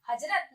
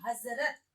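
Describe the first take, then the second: First: हजरत with a j sound; undotted j in हजरत; wrong हजरत. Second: हजरत with a buzzing z; dotted z in हजरत; nukta हजरत. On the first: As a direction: say हजरत as hajrat. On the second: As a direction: say हजरत as hazrat. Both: Shown as a demonstration. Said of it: "हजरत नहीं".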